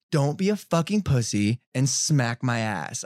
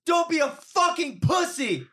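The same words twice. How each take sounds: First: Slow, measured goading at usual pitch; deliberate mock taunt. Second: High, drawn-out jeer; mock taunting woman. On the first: Woman goading the boxer, slow mock taunt. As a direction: draw out her challenge word by word. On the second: Woman goading the boxer, high mock taunt. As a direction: imitate her goading, high and slow.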